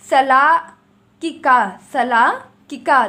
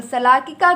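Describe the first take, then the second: First: सलाकिका loud and drawn out, split as सला, किका; सलाकिका in two loud, stretched chunks; syllable-by-syllable dictation. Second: Said in the usual way. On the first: Shown as a demonstration. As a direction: dictate सलाकिका slowly and forcefully, pausing after सला. Spells out the word for learners.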